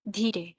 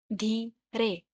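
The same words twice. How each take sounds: First: Said in the usual way. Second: "धीरे" split as धी, रे; syllable by syllable. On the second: Shown as a demonstration. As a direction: say "धीरे" in two separate beats. ("धीरे" दो टुकड़ों में, धी-रे) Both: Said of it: "टू syllables".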